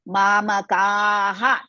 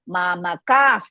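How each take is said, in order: First: The word ends with a breathy 'ha' sound. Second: The word ends with a soft 'f' sound. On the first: "we have the visarga, we have to pronounce that part" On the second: "next letter is pa, so we are going to add mamakaf"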